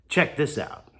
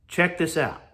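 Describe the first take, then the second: No difference in how they are said.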